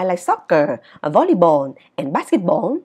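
The items before 'and' lack the rising pitch. The speaker calls it wrong. "Chứ không đọc là"

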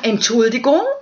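It sounds like a sincere apology.

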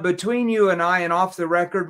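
It is said in a stiff, robotic tone. The speaker calls it wrong. "If you stand straight up like a robot and say"

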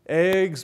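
The vowel is short, as in 'bed'. "And eggs becomes"

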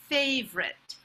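The word is said with an English accent. "the pronunciation in English"

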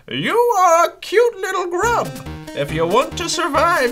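It is read in a put-on character voice.

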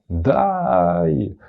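The word is said in a joyful tone. The speaker is happy. "ти можеш сказати радісно «дай»"

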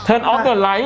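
It is spoken with a strong Thai accent. A simple command works without a polished accent. "อ่ะสำเนียงไทยมากเลยนะ"

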